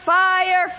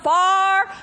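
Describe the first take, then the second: First: It is said in a standard accent. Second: It is said in an Oklahoma accent.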